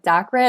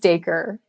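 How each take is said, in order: First: The name ends with an 'ah' sound. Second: The name ends with an 'er' sound. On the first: This is how many other people say it. "people do call it like Dakra" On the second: This is the author's own pronunciation. "I pronounce it as Daker"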